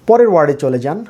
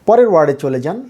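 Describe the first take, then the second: No difference in how they are said.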